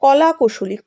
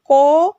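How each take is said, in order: First: Said in the usual way. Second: "ক-লা-কু-শ-লি" in five long, separated syllables, louder. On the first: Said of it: "এটাকে ভাঙতে গেলে". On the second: Shown as a demonstration. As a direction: count out "ক-লা-কু-শ-লি" with a pause after each syllable. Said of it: "পাঁচবার ভাঙতে হচ্ছে". ("ক-লা-কু-শ-লি" পাঁচ দলে টেনে টেনে)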